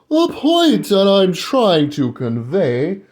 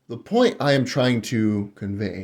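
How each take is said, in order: First: It is said in a put-on British accent. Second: It is said in the speaker's ordinary accent.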